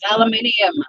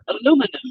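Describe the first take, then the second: First: The word is said with five syllables. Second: The word is said with four syllables. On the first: The speaker calls it right. "Put that I back in. It's aluminium" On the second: The speaker calls it wrong. "There's an extra I in there"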